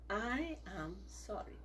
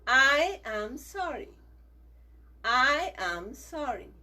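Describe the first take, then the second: First: "I am sorry" said slowly and much softer; soft apology. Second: Slow, firm and a bit louder; slow apology drill. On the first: Teacher ends the children's sorry drill, soft and slow. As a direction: let "I am sorry" fade to a soft, gentle close. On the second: Teacher leads the children in saying sorry, slow and firm. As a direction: spell out each word of "I am sorry" slowly. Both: Shown as a demonstration. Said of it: "Say it three times".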